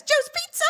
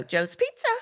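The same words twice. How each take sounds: First: Very high bright rising "Joe's Pizza"; friendly phone greeting. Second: Said in the usual way. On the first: Shown as a demonstration. Boss showing girl how to greet callers, very high and rising. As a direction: sing "Joe's Pizza" up like a cheery hostess. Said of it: "say it like this". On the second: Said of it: "she would go".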